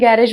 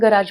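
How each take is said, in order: First: The word ends with an 'ej' sound. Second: The word ends with an 'aaj' sound. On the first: "मराठीमध्ये जरी आपण गॅरेज म्हणत असलो" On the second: "इंग्लिशमध्ये आपण गराज म्हणतो"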